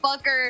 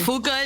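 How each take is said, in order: First: The name ends with an 'er' sound. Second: The name ends with an open 'ah' vowel. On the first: The speaker calls it wrong. "A lot of people like to pronounce it fucker" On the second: The speaker calls it right. "Fuka is the correct pronunciation"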